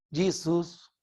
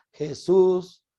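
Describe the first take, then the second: First: "Jesus" said the English way, with a "dj" sound, stress on the first syllable; English pronunciation. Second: Said in the usual way. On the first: Shown as a demonstration. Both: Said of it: "que se puede llamar".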